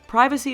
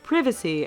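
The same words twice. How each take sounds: First: It is said the American way. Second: It is said the British way.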